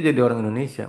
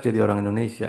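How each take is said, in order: Both takes have the same delivery.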